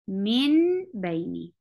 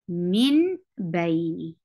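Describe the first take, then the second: The two takes are said the same way.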